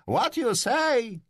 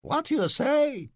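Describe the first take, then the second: First: Much higher, slow falsetto crow; mocking crow. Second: Much higher, slow falsetto squawk; cracking rooster voice. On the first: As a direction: crow it at the teacher to mock him. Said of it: "zapiałem w stronę eunucha". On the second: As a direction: crow it like a mocking question. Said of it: "łamiącym się kogucio głosem". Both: A narrator's reading.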